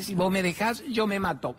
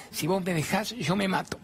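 First: Higher, mock-pleading threat; hammed-up desperate plea; desperate clinging man. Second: High, mock-desperate plea; hammed-up threat from a clinging ex; desperate clinging man. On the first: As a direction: push the whine further up, like a child begging. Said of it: "Me dice". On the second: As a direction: whine it like an abandoned little boy. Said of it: "se aferra para que yo no lo deje".

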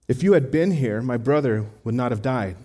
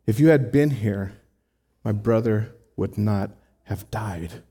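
First: A touch of frustration, pressing and direct; frustrated Martha. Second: Devastated Mary. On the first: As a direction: read it as a hurt friend confronting him. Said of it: "Martha is frustrated". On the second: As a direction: let the words fall heavy with loss. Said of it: "she's devastated". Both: Retold or imitated.

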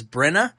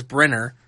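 First: "Brenna" with the final r dropped; imitated British "Brenna", no r at the end; British-style Brenna. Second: Said in the usual way. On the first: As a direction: say "Brenna" with an open "uh" ending. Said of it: "he slips into a British accent". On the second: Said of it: "He says Brenna when he says Brenner".

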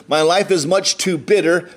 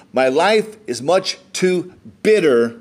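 First: Said in the usual way. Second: "My life is much too bitter" drawn out word by word; slow right down and weigh "much too bitter"; deliberate, spaced-out reading with weight on "bitter"; slow emphatic repeat. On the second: A narrator's reading. Repeats verse after "Pay attention.

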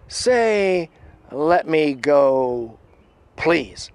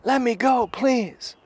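First: Slow, raised commanding voice; imitated slow, loud demand; Critter. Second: High, squeezed-up imitation of a pinned man pleading; mock high-pitched plea; pleading captive. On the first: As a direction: draw the order out, one piece at a time. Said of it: "Critter's voice goes". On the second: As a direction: beg in a high put-on voice. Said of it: "And the guy goes".

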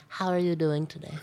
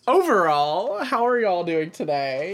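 First: Put-on voice. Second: High, loud, drawn-out host question; put-on host voice. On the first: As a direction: redo the question in a put-on voice. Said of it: "now that you've used that voice". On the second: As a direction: ask it big and slow, pitched up. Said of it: "let me try that again".

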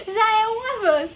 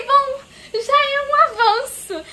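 First: Said in the usual way. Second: Slow, high, laughing through the words. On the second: Real, not acted. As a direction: chuckle it out in relief. Laughing relief at small progress.

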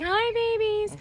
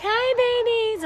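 First: Put-on whispered baby talk. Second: High squeaky greeting; high-pitched baby talk. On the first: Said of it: "and I'm like". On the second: Retold or imitated. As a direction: chirp it up high. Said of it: "I'm always like".

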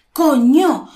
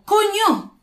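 First: COÑO punched loud, both syllables strong; force on each syllable. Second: COÑO high and drawn out, not shouted; alternative intonation. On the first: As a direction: hit both halves of "coño" hard. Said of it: "Le damos fuerza a cada sílaba". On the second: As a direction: stretch "coño" slowly on a raised pitch. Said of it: "fíjate en la entonación". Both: Shown as a demonstration.

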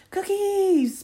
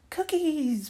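First: Very high, drawn-out loud squeal; toddler scream. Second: Put-on high, loud toddler squeal; little girl's echo. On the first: Little girl seeing the plate of cookies, piercing high scream. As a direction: scream it like an overjoyed tot. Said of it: "Penny screams". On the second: Little sister repeating her sister's word, high eager pipe. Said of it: "Penny repeats". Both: A narrator's reading.

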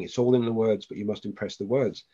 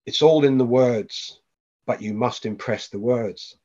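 First: A light hint of a child repeating the riddle, tapering softer; barely voiced kid, sing-song and fading; child's voice. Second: Slow, drawn-out dream voice, only lightly voiced; a faint hint of a ghost calling from the background; ghostly voice. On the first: A child's voice in the dream repeating the words, lightly voiced and fading. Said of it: "the kid's voice kept saying". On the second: A dream voice repeating a riddle to the father, slow and ghostly. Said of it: "the voice that was like a ghost in the background".

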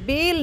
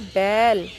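First: बेल with a plain long e, as in "bel"; long E vowel. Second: बैल with a wide open ai, drawn out; open AI vowel. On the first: Teacher shows children the one-matra word, बेल with plain e. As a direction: say बेल with the single-matra e sound. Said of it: "अब बेल नहीं". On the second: Teacher shows children the two-matra sound, open ai in बैल. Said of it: "आवाज़ आएगी बैल". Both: Shown as a demonstration.

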